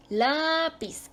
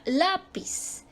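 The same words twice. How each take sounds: First: "Lápiz" with LÁ high and drawn out; stress on LÁ. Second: Said in the usual way. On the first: Shown as a demonstration. Teacher showing where the tonic syllable falls, stress on LÁ. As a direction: lift and hold the LÁ of "Lápiz". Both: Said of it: "ahí cae la sílaba tónica".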